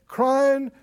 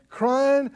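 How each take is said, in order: Both takes have the same delivery.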